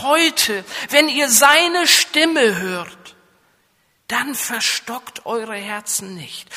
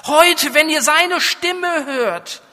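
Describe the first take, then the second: First: Slow, raised solemn reading of the verse; solemn scripture quote. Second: HEUTE hit hard, higher and louder; preaching emphasis on Heute; urgent appeal. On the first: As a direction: read the verse out with weight. Quoting scripture in a preaching voice. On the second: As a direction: press Heute as a call to act now. Repeats verse as urgent appeal. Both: Acted.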